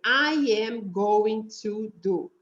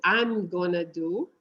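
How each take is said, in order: First: Slow "I am going to do", every word separate; full "going to" in "I am going to do", no contraction; uncontracted. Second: "I'm gonna do" with "going to" merged; contracted gonna. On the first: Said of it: "Que quer dizer". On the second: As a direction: colloquial "gonna" in slow "I'm gonna do". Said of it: "juntam esse going to e vira gonna". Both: Shown as a demonstration.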